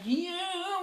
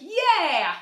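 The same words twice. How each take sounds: First: The voice sounds plain, without bright twang. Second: The voice sounds bright and strongly twangy. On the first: The speaker calls it wrong. "not like yeah" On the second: The speaker calls it right. "with a lot of what they call twang"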